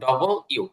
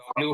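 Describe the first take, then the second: First: It is said fully as double you. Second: It is clipped to two quick syllables. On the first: The speaker calls it right. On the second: The speaker calls it wrong. "এরকম না বলে"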